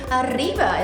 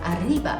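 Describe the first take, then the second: First: The r is a long rolled trill. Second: The r is a plain single sound, not rolled. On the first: This way is not required. "꼭 arriba 이렇게 안 하셔도 상관없어요" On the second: This easier way is acceptable. "이렇게 하셔도 상관없어요"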